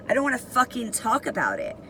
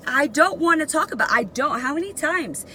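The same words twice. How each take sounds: First: Slightly raised, quick refusal; semi-nice with attitude. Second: High, fast, exasperated refusal; fed-up attitude. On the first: Inmate's first answers to the guard, retold restrained attitude. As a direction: hold back, with some attitude. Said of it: "semi-nice, still had an attitude". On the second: Inmate refuses the guard's repeated question, retold exasperation. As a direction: push back, voice raised in pitch. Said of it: "still had an attitude". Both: Retold or imitated.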